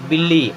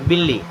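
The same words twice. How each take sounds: No difference in how they are said.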